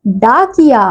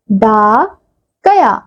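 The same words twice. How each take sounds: First: डाकिया said whole with the ई sound on कि; डाकिया with a clear short i in the middle; full word. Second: डा and कया said apart, with a gap where the ई goes; डा, pause, कया, no i sound between them; incomplete word. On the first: Teacher says the finished word to the class, with the ई clearly sounded. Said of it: "ये शब्द क्या बन गया बच्चों?". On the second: Teacher shows the children the word with its missing ई matra. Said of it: "बीच में जो हमें खाली स्थान दिया गया है". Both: Shown as a demonstration.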